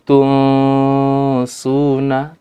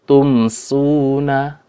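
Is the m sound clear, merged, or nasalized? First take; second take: nasalized; clear. First: The m is hidden and nasalized before the s. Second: The m is pronounced clearly before the s. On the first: The speaker calls it wrong. "tidak dibaca dengan ikhfa, ya, samar-samar" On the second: The speaker calls it right. "tapi dengan id izhar"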